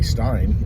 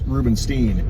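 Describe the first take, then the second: First: The ending is said with German pronunciation. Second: The ending is said with Jewish pronunciation. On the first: "You pronounce it the German way"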